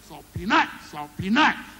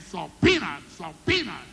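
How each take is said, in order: First: The stress falls on nut. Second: The stress falls on pea.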